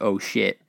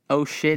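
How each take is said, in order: First: It sounds startled, not disgusted. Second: It sounds disgusted.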